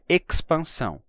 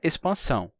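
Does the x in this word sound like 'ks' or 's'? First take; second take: ks; s. First: The x sounds like ks. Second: The x sounds like s. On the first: The speaker calls it wrong. "Não pode ser expansão" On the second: The speaker calls it right. "Qualquer falante de português sabe instintivamente que é expansão"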